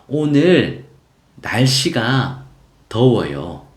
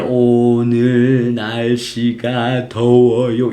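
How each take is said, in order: First: The sentence is broken up with pauses between words. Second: The sentence is said slowly, without breaks between words. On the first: The speaker calls it right. "이렇게 끊어서" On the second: The speaker calls it wrong. "천천히"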